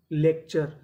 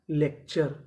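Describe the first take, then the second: No difference in how they are said.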